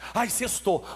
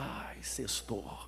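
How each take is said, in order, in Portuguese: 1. É gritado, com um tom animado e feliz. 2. É dito com um tom triste e decepcionado. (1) "Você nunca mais vai gritar assim" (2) "Você até vai ficar chateado"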